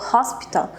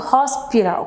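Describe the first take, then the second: First: The middle consonant is a clear T sound. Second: The middle consonant sounds like a quick R. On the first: "essa palavra hospital que ela falou" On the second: "como se fosse um R no lugar do T"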